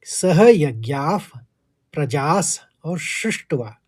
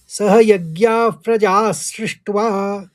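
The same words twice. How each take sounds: First: "सह यज्ञाः" then "प्रजास और सृष्ट्वा", each word separated; split pronunciation demo. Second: "सह यज्ञाः प्रजा सृष्ट्वा" chanted smoothly in one breath, higher; joined chanted line. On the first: Teacher shows students the split reading, slow. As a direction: break it as प्रजास और सृष्ट्वा, slowly. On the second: Teacher chants the joined line after the split. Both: Shown as a demonstration. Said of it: "उच्चारण किस तरह से होगा".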